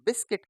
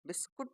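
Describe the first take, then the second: First: The second syllable has an 'i' vowel. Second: The second syllable has a 'u' vowel. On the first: This is the English way of saying it. The speaker calls it right. "जब English में हमें बोलना होगा तो हम क्या कहेंगे बिस्किट कहेंगे" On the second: This is the Hindi way of saying it. The speaker calls it wrong. "बिस्कुट नहीं बोलेंगे"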